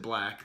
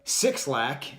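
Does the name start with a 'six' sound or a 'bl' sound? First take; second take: bl; six. First: The name begins with a bl sound. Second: The name begins with the word six. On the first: It is how the artist says his own name. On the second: It is a goofy, dad-style way to say the name. "is what a dad would call it"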